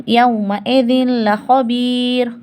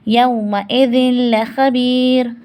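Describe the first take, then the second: The two takes are said the same way.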